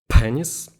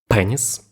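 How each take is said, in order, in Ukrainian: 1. Звук П б'є гучним вибуховим поштовхом. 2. Звук П м'який, без вибухового поштовху. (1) "знімемо поп-фільтр. На тій же відстані" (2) "Це зараз з вбудованим комплектним поп-фільтром"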